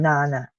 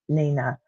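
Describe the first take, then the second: First: The first vowel is a long I. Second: The first vowel is a short I. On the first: "a long I" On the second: "a short I"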